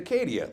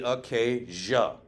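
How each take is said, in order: First: The ending is said as 'dee-uh'. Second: The ending is said as 'jah'. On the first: This is the English way of saying it. "We would pronounce it Acadia, like the G M C S U V" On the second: This is the French way of saying it. "in French, D I A doesn't make dia, it makes a J A sound. So it's actually Acadia"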